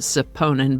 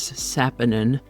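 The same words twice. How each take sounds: First: Saponin is said with a tempting variant pronunciation. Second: Saponin is said with its standard pronunciation. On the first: The speaker calls it wrong. "I keep wanting to pronounce it saponin" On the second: The speaker calls it right. "but it is saponin"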